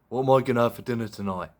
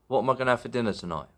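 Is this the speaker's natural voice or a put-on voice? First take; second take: put-on; natural. First: It is said in a put-on, different voice. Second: It is said in the speaker's natural voice.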